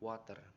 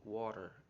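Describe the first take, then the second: First: It is said in an Indonesian accent. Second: It is said in an English accent.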